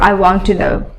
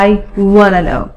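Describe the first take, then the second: First: 'Want to' is said in full. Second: 'Want to' is reduced to 'wanna'. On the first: "or I want to know" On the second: "want to এর জায়গায় wanna"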